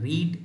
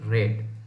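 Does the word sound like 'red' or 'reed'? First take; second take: reed; red. First: The vowel is long, as in 'reed'. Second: The vowel is short, as in 'red'. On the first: It is the present form of the verb. "जैसे रीड" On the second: It is the past form of the verb. "इसको रेड पढ़ते हैं"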